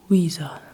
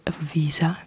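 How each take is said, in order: First: The word begins with a W sound. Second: The word begins with a V sound. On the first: "you say visa" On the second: "Instead of visa"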